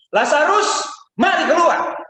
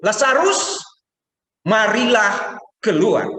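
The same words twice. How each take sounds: First: High loud call from far. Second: High, loud, slow summons; calling Lazarus. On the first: Jesus calling Lazarus from outside, a loud high call. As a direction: call across to the tomb. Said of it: "dia panggil Lazarus dari sana". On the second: Jesus calling Lazarus out of the tomb, loud and slow. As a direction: call him out of the tomb. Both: Acted.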